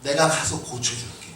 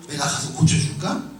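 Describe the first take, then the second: First: "고쳐줄게" falling as a plain promise; statement reading. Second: "고쳐줄까" lifted into a question; question reading. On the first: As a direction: state "고쳐줄게" with a low, settled ending. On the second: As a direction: ask "고쳐줄까" with a rising ending. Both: Shown as a demonstration. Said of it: "이렇게 해석한 부분들이 있어요".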